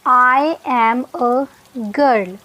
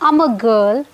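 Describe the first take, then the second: First: I and am are said as two words. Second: I and am are joined into one syllable. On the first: "पहला sentence था" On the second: "आई और एम को जोड़ देंगे, contract कर देंगे"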